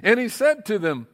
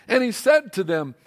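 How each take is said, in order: Both takes have the same delivery.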